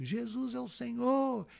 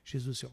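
First: It is shouted at full volume. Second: It is said slowly and softly.

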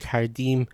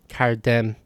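First: The last syllable has an 'ee' vowel. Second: The last syllable has an 'eh' vowel. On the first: "in Iran, it's im" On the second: "While in Dari and Tajik, it's em"

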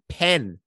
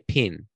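First: The vowel is said with an English accent. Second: The vowel is said with a New Zealand accent. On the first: "the English way would be pen" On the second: "We say pen"

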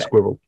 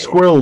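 First: The word is said with a British accent. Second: The word is said with an American accent. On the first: "They don't say squirrel" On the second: "they say squirrel, don't they, in America?"

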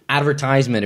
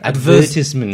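First: The stress falls on the third syllable. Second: The stress falls on the second syllable. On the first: This is the American way of saying it. "this again is advertisement if you're American" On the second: This is the British way of saying it. "Or advertisement"

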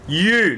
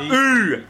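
First: The vowel starts with a y glide, like 'you'. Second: The vowel has no y glide, like 'ooh'. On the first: The speaker calls it right. "It's a U sound. Listen to the letter U" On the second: The speaker calls it wrong. "Not ooh"

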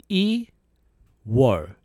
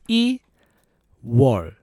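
Both takes have the same delivery.

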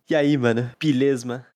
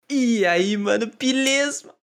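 First: It is said with less energy. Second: It is said with more energy.

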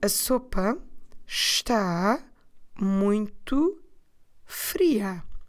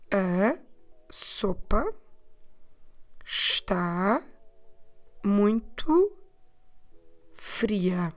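First: It is said at normal speed. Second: It is said more slowly.

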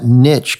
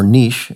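First: It is said with an American pronunciation. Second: It is said with a British pronunciation.

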